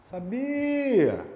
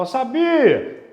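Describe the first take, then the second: First: "Sabia!" called higher as if to someone distant, stress on BI; calling someone far off. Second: "Eu sabia!" burst out louder and higher, drawn slow; a mock triumphant shout; mock loud exclaim. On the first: Shown as a demonstration. Teacher shows calling a distant person to find the stress, higher call. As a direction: call out "Sabia!" across a room. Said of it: "você vai se imaginar chamando". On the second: Teacher mocks a student shouting in the exam, loud and slow. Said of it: "vai falar".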